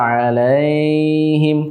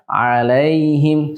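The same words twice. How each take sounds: First: The 'ai' sound is drawn out and lengthened. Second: The 'ai' sound is short and not lengthened. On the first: The speaker calls it wrong. "diucapkannya agak lama" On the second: The speaker calls it right. "kita ucapkan alaihim seperti itu"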